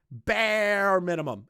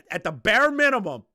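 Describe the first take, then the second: First: "Bare minimum." slowed down, BARE leaned on; slow stress on BARE. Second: "bare minimum" thrown out louder and higher; emphatic. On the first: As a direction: drag out "Bare minimum." word by word. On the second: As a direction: push the point, raised voice. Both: Real, not acted.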